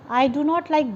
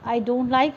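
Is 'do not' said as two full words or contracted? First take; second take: full; contracted. First: Do not is said as two full words. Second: Do not is shortened into one syllable.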